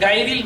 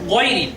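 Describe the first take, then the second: First: The first vowel is long and open. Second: The first vowel is short. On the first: The speaker calls it wrong. "অনেকে বলে থাকেন" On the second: The speaker calls it right. "আসলে সঠিক উচ্চারণটি হবে"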